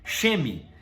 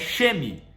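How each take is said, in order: The two takes are said the same way.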